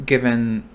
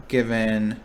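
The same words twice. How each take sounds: The two takes are said the same way.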